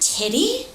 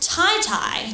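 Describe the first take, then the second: First: The first syllable has a short 'i' vowel. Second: Both syllables have the long vowel of 'tie'. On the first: The speaker calls it wrong. "it's not titty?" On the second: The speaker calls it right. "it is pronounced tie-tie, like two ties"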